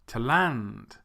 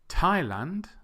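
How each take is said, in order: First: The stress is on the second syllable. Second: The stress is on the first syllable. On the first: The speaker calls it wrong. "would become Thailand" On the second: The speaker calls it right. "which is right"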